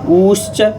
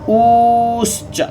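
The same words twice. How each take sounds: First: The u vowel is held about twice as long. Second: The u vowel is drawn out extra long. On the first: "ये दीर्घ उकार हो गया" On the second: "ये प्लुत उकार हो गया"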